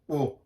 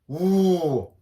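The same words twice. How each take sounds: First: The vowel is short with relaxed lips. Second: The vowel has lips pushed far forward. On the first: "짧고 입 모양도 그냥 그냥 약간 어, 크지 않은 그냥" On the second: "입이 앞으로 쭉 나와서"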